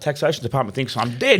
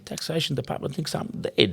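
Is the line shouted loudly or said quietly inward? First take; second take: shouted; quiet. First: The line is screamed out loudly. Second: The line is said quietly, turned inward. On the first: The speaker calls it wrong. "you used to scream this line" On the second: The speaker calls it right. "He turned it inwards"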